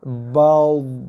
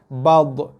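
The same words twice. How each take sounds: First: The final consonant stops softly without bouncing. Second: The final consonant bounces with a hard echo. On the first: The speaker calls it right. "yang tepatnya bunyinya ialah bad" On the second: The speaker calls it wrong. "ramai yang baca kalau dha baris mati bad"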